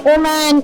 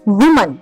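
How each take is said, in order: First: The word starts without a w sound. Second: The word starts with a clear w sound. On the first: The speaker calls it wrong. "the moment you say oh man, oh man, it just hits badly" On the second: The speaker calls it right. "So you say woman"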